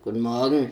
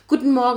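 First: The greeting sounds grumpy and unfriendly. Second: The greeting sounds very cheerful and happy. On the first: The greeter is grumpy in the morning. "wie die Frau unfreundlich ist am Morgen" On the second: The greeter is in a good mood in the morning. "tiefe Stimme, aber super fröhlich"

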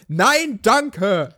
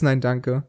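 First: The phrase is said loudly and clearly. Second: The phrase is said quietly, almost silently. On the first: The refusal is clearly acknowledged. The speaker calls it right. "wenn man einfach laut Nein, danke sagt" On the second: The refusal is barely acknowledged. The speaker calls it wrong. "manchmal so ein leises Nein, danke"

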